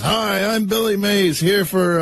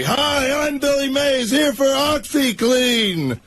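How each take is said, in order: First: High, drawn-out pitchman yell; Billy Mays. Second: Very high, sustained pitchman holler; Billy Mays. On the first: Showing the host the costume act, imitated pitchman yell. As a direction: imitate a yelling TV pitchman, held a little in check. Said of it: "that guy that yells". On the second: Re-enacting the party act for the host, imitated all-out pitchman yell. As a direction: belt it out like an infomercial yeller, sparing the microphone. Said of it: "I'd yell as loud as I could". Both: Acted.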